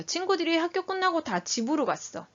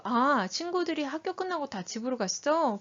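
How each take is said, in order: First: Lightly voiced child reporting, higher pitch; child's higher-pitched telling, feeling left unclear; child's statement. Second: Interested question. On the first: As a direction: tell it as a child reporting to mom. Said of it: "지금 무슨 상황인지 모르겠죠". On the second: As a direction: reflect the child's words as a caring question. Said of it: "관심 어린 질문 먼저 하는 거". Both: Shown as a demonstration.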